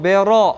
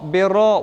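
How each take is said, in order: Both takes have the same delivery.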